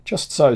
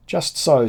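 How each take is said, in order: First: Baffled but grateful, pitched up; baffled agreement. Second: A touch of baffled agreement, pitched up. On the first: Von Beck thanking the German youth, baffled. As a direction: agree again, hiding surprise. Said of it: "baffled by his logic". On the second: Von Beck agreeing with the German youth, baffled. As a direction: agree quickly while hiding surprise. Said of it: "said I, baffled by his logic". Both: A narrator's reading.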